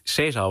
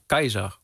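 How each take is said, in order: First: The name begins with a soft s sound. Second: The name begins with a hard k sound. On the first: This is the later pronunciation of the name. The speaker calls it wrong. "niet Caesar was" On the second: This is how the Romans themselves pronounced it. The speaker calls it right. "maar Keizer was. Want ze schrijven met een harde K. En ze schrijven AI"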